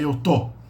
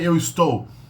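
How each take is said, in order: First: The verb's first syllable is dropped, giving tô. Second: The verb is said in full with its first syllable. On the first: It is the everyday colloquial form. "you say eu tô" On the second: It is the formal, spelling-based form. "you usually don't say eu estou"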